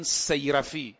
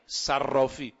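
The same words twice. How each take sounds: First: Put-on صیرفی said as sey-ra-fi, the old form; old pronunciation. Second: Said in the usual way. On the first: Shown as a demonstration. Preacher explaining the old word, صیرفی pronounced sey-ra-fi. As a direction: say صیرفی with ey in the first syllable. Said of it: "اون زمان میگفتن صیرفی".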